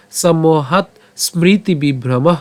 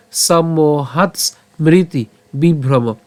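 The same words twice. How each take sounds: First: সম্মোহাৎ ends in "t", স্মৃতি keeps its initial "sm"; joined pronunciation. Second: সম্মোহাৎ ends in "ts", a pause, then স্মৃতি starts on "mriti"; slow chant, broken between সম্মোহাৎ and স্মৃতি as hats, mriti; split pronunciation. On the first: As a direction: run সম্মোহাৎ on into a full "smriti" for স্মৃতি. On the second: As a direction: move the s of স্মৃতি back onto সম্মোহাৎ. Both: Shown as a demonstration. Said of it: "অথবা".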